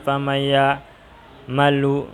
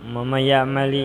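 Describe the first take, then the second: First: The last word ends with a final u vowel. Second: The last word ends with a final i vowel. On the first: "tidak ada ceritanya" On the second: "tidak ada ceritanya"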